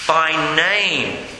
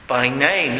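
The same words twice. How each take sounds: First: Said in the usual way. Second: A deeper stressed repeat; lower, slower emphatic echo. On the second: Shown as a demonstration. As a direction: repeat "By name" lower, with weight. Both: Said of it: "repeats it for emphasis".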